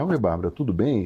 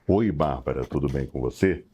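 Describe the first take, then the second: First: It is said in a natural conversational voice. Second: It is said in a put-on radio announcer voice.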